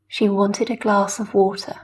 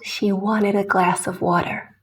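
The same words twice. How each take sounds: First: The T is a clean, crisp T. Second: The T sounds more like a D. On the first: The speaker calls it right. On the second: The speaker calls it wrong.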